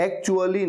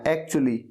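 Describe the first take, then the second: First: "actually" with an added uh, ak-chu-a-lee; mispronounced actually. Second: "actually" run together as ak-chu-lee; correct actually. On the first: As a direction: say "actually" in four syllables. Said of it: "अ लगा देते हैं". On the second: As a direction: say "actually" without an extra uh. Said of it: "इसे आपको actually कहना है". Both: Shown as a demonstration.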